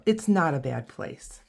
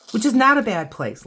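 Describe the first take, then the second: First: Said in the usual way. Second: "not" said higher and louder; stress on not. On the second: Real, not acted. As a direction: lean on "not". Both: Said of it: "A lot of, lot of jokes about Toledo".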